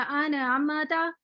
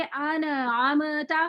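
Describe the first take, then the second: First: अनअमता drawn out very slowly, the नून set moving; very slow wrong take. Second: अनअमता with नून and मीम held still and closed; correct take. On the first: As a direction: exaggerate the mistake in अनअमता, jaw moving on the नून. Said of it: "एक हिला देंगे". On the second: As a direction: recite अनअमता cleanly, no movement on the nasals. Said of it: "इसको पढ़ेंगे". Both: Shown as a demonstration.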